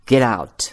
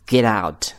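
Both takes have the same delivery.

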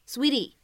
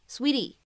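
First: The middle t is a quick, soft flap. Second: The same.

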